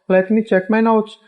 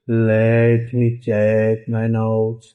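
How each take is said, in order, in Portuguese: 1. Soa suave e natural, como uma fala normal. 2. Soa dura e robótica, como uma voz de computador.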